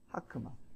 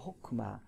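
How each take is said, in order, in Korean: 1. 첫 모음은 'a'로 발음해요. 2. 첫 모음은 'o'로 발음해요. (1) "쓰기를 딱 봤을 때 하크마 이렇게 읽습니다" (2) "그래서 호크마가 됩니다"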